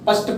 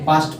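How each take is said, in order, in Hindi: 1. स्वर छोटा 'uh' है। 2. स्वर लंबा 'ah' है। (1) "कुछ लोग तो या तो पस्ट पढ़ेंगे" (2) "उस ए का उच्चारण हमारा आ होता है"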